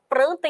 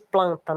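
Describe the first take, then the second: First: The second consonant sounds like an R. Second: The second consonant sounds like an L. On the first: This is a Northeastern regional pronunciation. "o nordestino, por exemplo, fala" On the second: This is the standard pronunciation. "em vez de"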